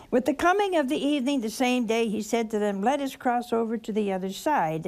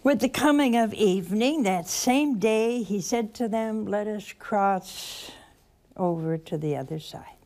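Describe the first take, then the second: First: Fast, careless read-through of scripture; rushed newspaper reading. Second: Slow, savoring each phrase; slow reflective reading. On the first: Preacher showing the congregation a hurried reading. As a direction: rattle it off like skimming a newspaper. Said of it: "if you read it like a newspaper". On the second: Preacher showing the congregation a slow prayerful reading. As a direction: read it slowly, letting each word land. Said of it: "And slowly". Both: Shown as a demonstration.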